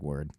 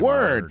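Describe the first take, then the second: First: It is said casually without emphasis. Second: It is said with strong emphasis.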